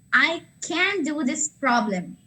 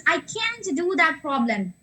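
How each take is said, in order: First: "I can do this problem" said slowly, each word weighted; slow, deliberate example of sentence stress; stressed demo sentence. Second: "can't" clearly hit in "I can't do that problem"; stress on can't. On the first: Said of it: "you have to stress the". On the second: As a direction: lean on the word "can't" to show the negative. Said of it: "you have to stress the word can't". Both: Shown as a demonstration.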